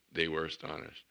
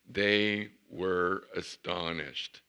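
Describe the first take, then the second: First: Said in the usual way. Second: "astonished" stretched slow and loud; astonished drawn out. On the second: Shown as a demonstration. Preacher savouring the verse, "astonished" stretched slow. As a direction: linger on "astonished".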